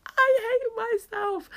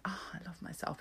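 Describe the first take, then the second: First: Much higher, slow, put-on comic voice; mock self-loathing. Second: A soft breathy whisper, almost to herself; whispered self-love. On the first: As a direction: stretch it out in a silly whiny voice. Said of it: "And then sometimes I'm like". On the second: Retold or imitated. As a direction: whisper it as a private little boast. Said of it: "sometimes I'm like".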